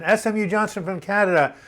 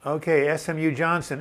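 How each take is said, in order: First: Louder, higher, announcing the name like a game-show host; excited call-out. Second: Said in the usual way. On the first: Real, not acted. Host calling out a chat viewer by name, loud and excited. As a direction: hail the viewer across the room.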